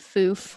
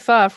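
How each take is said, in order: First: The vowel is a long 'oo' sound. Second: The vowel is a short 'uh' sound. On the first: "I keep pronouncing it foof" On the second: "I know it's probably fuff"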